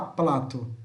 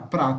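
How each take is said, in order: First: The word is said with an L sound. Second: The word is said with an R sound. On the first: This imitates a character who swaps R for L. "ele fala plato" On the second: This is the normal Portuguese way. "Ele não fala prato"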